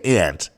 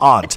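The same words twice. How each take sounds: First: It is said with a Midwestern 'ant' vowel. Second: It is said with an East Coast 'ahnt' vowel.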